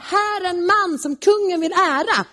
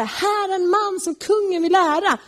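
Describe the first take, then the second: First: Calling it out high and grand; proud herald's cry, pitched up; proud proclamation. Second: A herald's cry pitched high, but humiliated; reluctant herald's cry, high; forced proclamation. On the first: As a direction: announce him like a herald, pleased with himself. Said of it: "så ska man ropa". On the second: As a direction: call it out grandly while eating your pride. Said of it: "Han får gå där och ropa". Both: Retold or imitated.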